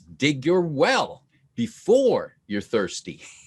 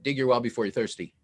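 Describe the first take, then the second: First: The line is delivered with lively vocal variety. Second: The line is delivered in a flat, even voice. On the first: The speaker calls it right. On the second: The speaker calls it wrong.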